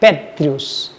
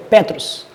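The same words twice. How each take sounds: First: "Petrius" mais grave, com um i antes do final, pé-tri-os; leitura alternativa Petrius. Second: "Petros" lido com o final "us", pé-trus; leitura de Petros. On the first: (mostrando a outra leitura, "Petrius", mais grave) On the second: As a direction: leia "Petros" terminando em trus. (mostrando aos alunos como se lê "Petros") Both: Shown as a demonstration. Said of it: "É assim que é a leitura".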